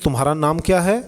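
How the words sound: It is said smoothly with a native Hindi accent. A native speaker says it with ease. "आप आराम से बोल देंगे"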